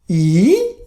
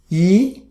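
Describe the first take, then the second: First: The pitch dips low and then rises. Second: The pitch rises from mid to high. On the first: "Third tone" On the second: "The second tone"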